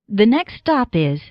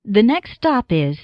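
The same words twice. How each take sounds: The two takes are said the same way.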